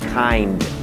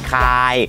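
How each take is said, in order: First: The word ends with clear n and d sounds. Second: The word ends without n or d sounds. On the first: The speaker calls it right. "แต่ว่าต้องมีนอมีดอนะครับ" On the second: The speaker calls it wrong. "ไม่ใช่คาย"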